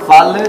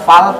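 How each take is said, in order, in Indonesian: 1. L akhir dipantulkan dengan gema. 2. L akhir ditahan tanpa gema. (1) "tidak seperti itu pembacaannya" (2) "Fal tahan"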